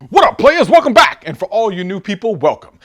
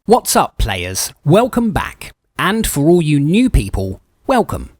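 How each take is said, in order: First: It is said in his plain normal voice. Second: It is said in a put-on fancy voice.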